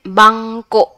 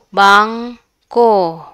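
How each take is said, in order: First: The final syllable is stressed. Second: The final syllable is not stressed. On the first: "the o is very we emphasize it" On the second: "we don't emphasize the the o"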